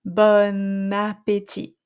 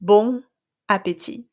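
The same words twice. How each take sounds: First: Bon appétit slow, as one word with the N linked; French liaison. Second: Bon appétit with nasal bon and a break; non-linked French; wrong nasal take. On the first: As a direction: glue Bon to appétit with a clear N. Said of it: "It sounds like one word almost". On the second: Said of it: "So I don't say". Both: Shown as a demonstration.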